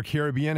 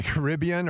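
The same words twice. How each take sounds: First: Caribbean stressed on BE; alternative pronunciation. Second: Caribbean stressed on RIB; one pronunciation variant. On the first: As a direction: say Caribbean as kair-ih-BEE-un. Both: Shown as a demonstration. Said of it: "however you wanna say it".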